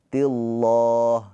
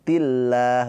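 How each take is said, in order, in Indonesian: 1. Bunyi 'llah' tebal, dengan bunyi o yang membulat. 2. Bunyi 'llah' tipis, dengan bunyi a yang terbuka. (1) "bukan tilloh" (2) "pakainya tarkik tipis, pakai a"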